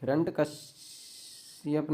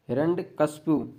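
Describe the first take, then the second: First: हिरण्यकश्यप ending in kashyap; हिरण्यकश्यप said hiranyakashyap, the common mistake; wrong form. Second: हिरण्यकशिपु ending in shipu; हिरण्यकशिपु said hiranyakashipu, not kashyap; correct form. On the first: Teacher naming the wrong form हिरण्यकश्यप. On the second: Teacher giving the correct name हिरण्यकशिपु. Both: Shown as a demonstration. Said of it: "हिरण्यकश्यप नहीं होता".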